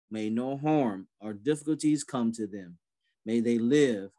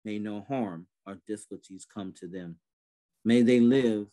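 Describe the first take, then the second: No difference in how they are said.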